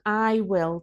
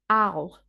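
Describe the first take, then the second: First: Both words are said fully and separately. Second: The contraction is reduced even further. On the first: "We usually shorten I will" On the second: "or even I'll"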